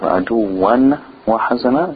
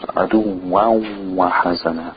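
First: A full n sound is said before the w. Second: The n merges into the w, leaving only nasality. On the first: The speaker calls it wrong. "instead of" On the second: The speaker calls it right. "The noon sound, the N, merges with the waw"

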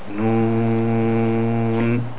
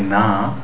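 First: The letter name is said fully, vowel drawn out. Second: The letter name is cut short to 'na'. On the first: The speaker calls it right. "we say noon. Right? We pronounce the letters completely" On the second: The speaker calls it wrong. "we don't say na"

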